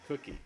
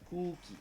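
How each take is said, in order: First: The vowel in cookie is soft and short. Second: The vowel in cookie is a long O. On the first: This is how most people here say it. "we say cookie with a with a soft U" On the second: This is one person's accent, heard as cute. "Gibbs does the long O pronunciation"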